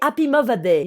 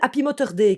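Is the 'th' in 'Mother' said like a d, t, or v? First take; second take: v; t. First: The 'th' in 'Mother' sounds like a v. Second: The 'th' in 'Mother' sounds like a t. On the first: "tu dois le prononcer comme un V" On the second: "prends-le comme un T normal"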